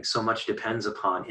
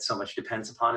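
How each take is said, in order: First: Plain steady reading voice; dramatic line break. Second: Said in the usual way. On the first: Shown as a demonstration. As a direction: pause hard after upon. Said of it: "and then the break". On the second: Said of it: "as a single line".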